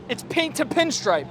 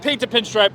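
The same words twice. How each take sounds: First: Slow, savoring each word of the new phrase; coining a phrase. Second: Said in the usual way. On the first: Shown as a demonstration. Vlogger coining his own car term, slowly savored. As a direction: roll it out slowly like a catchphrase. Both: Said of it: "I'm coining that".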